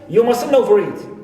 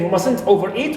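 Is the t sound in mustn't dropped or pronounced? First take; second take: dropped; pronounced. First: The t in mustn't is dropped. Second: The t in mustn't is clearly pronounced. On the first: "we say" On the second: "Instead of saying"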